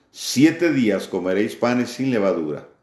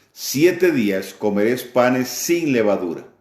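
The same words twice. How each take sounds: The two takes are said the same way.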